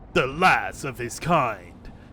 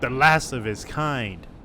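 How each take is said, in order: First: It is said in a Batman impression voice. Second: It is read in his normal voice.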